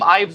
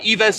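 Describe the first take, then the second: First: The name is said to rhyme with chives. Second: The name is said not rhyming with chives. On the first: The speaker calls it wrong. "just like chives, and I think that's been definitely very wrong" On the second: The speaker calls it right. "the proper way to pronounce"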